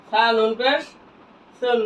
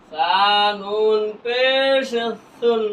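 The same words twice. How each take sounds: First: Said in the usual way. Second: Very slow recitation drill; each letter name stretched evenly; drawn-out spelling. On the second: Shown as a demonstration. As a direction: hold নুন and পেশ long. Same spelling repeated drawn out.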